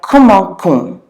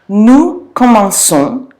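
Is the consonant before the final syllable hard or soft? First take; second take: hard; soft. First: The middle consonant is a hard k sound. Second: The middle consonant is a soft s sound. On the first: The speaker calls it wrong. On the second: The speaker calls it right.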